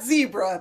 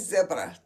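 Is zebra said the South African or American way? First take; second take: American; South African. First: It is said the American way. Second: It is said the South African way.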